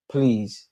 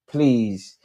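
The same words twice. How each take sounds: The two takes are said the same way.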